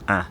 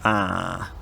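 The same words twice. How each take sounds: First: The vowel is held very briefly. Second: The vowel is held for the longest time.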